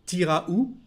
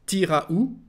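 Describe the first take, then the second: First: It is said casually, with the first word shortened. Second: It is said casually, with the first word shortened.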